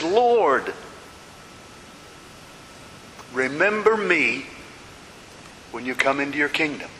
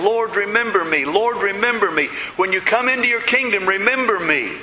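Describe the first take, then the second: First: Said in the usual way. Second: Higher, insistent pleading; urgent repeated plea. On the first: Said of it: "not just once like in our English versions". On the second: Retold or imitated. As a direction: beg again and again without letting up. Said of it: "but over and over again, he kept saying".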